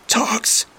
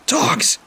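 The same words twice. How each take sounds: First: Strangled high wheeze; wheezing. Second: Breathless, high, voiceless cry; strangled whisper. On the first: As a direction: squeeze it out, choked, high. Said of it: "I wheezed out". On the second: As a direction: gasp the name out, throat crushed. Being strangled by chain. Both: Acted.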